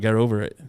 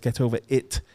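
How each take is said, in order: First: It is said in a North American accent. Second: It is said in a non-American local accent. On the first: "no, get over it" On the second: "It's get over it"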